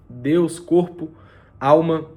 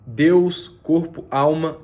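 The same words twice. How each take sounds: The two takes are said the same way.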